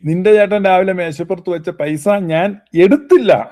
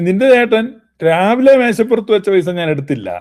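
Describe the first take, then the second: First: The stress falls on the word എടുത്തില്ല. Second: The stress falls on the word രാവിലെ. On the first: The money may have been hidden rather than taken. "എടുത്തില്ല എന്നുള്ളതിന് ഊന്നൽ കൊടുത്താൽ" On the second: Money left at another time may have been taken. "രാവിലെ എന്നുള്ളതിന് ഊന്നൽ കൊടുത്താൽ"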